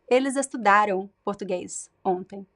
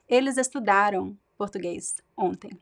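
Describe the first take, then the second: No difference in how they are said.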